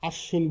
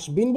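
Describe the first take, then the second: First: The 'sh' consonant is doubled, no 'b'. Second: A 'b' sound follows the consonant. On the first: The speaker calls it right. "আশ্বিন বলি। ... দ্বিত্ব উচ্চারিত" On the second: The speaker calls it wrong. "আসবিন বলি না"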